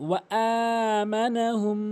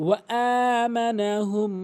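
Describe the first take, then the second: Both takes have the same delivery.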